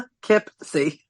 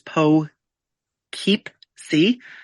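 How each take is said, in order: First: The middle syllable sounds like 'kip'. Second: The middle syllable sounds like 'keep'. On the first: The speaker calls it right. "it's like no, it's" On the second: The speaker calls it wrong. "technically it's it's Po Keep C, like how it's spelt"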